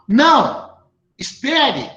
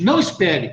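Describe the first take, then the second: First: There is a pause after "não". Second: It is said without a pause.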